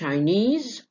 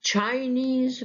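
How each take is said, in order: First: The stress is on the second syllable. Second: The stress is on the first syllable.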